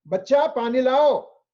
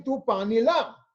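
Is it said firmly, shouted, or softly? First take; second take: firmly; softly. First: It is said in a firm voice. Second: It is said softly and gently.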